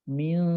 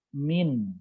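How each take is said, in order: First: The n sound is obscured and nasalized. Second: The n sound is pronounced clearly. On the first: "Ketika dibaca samar" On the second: "Ketika dibaca jelas"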